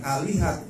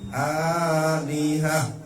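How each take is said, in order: First: The word ends with a t sound. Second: The word ends with an h sound. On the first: The speaker calls it wrong. "bukan alihat" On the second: The speaker calls it right. "tapi alihah"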